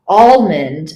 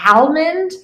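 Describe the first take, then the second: First: "almond" as AWL-mund, open "aw" start; second way of saying almond. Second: "almond" as AL-mund, short a as in "cat"; first way of saying almond. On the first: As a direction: begin "almond" like the word "all". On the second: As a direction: open "almond" on a flat a, tune rising. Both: Shown as a demonstration. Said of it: "way that people say it".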